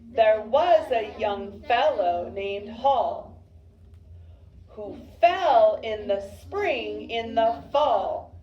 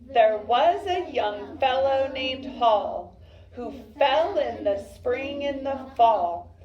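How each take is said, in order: First: It is read more slowly and less smoothly. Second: It is read more quickly and smoothly.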